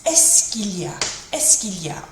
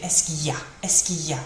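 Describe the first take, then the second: First: "est-ce qu'il y a" as "esk-eel-ya"; l sounded. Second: "est-ce qu'il y a" reduced to "esk-ee-ya"; l dropped. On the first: Teacher giving the fuller version, "est-ce qu'il y a" with its "l" heard. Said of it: "getting that il sort of sound". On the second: Teacher offering the alternative, "est-ce qu'il y a" said as "esk-ee-ya". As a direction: let the "l" vanish from "est-ce qu'il y a". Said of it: "Or we can do the". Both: Shown as a demonstration.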